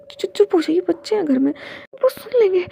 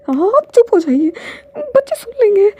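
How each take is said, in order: First: Flustered, higher hush-up with a stammer; embarrassed shushing. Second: Much higher and louder, close to crying; loud tearful plea. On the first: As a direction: hush him up, red-faced and stammering. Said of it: "उसे शर्म आ रही थी". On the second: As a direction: beg him to stop, voice cracking into tears. Repeats plea, louder, near tears. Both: Acted.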